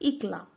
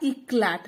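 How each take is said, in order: First: The word ends without any t sound. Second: The word ends with a clear t sound. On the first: The speaker calls it right. "वो टी हमेशा silent रहता है" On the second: The speaker calls it wrong. "नहीं"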